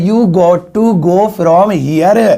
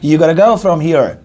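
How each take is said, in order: First: 'Got to' is said as two full words. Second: 'Got to' is blended into one word, 'gotta'. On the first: "तो वैसे तुम्हें बोलता" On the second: "अंग्रेजों की तरह बन थोड़ा, तो ऐसे बोलेंगे"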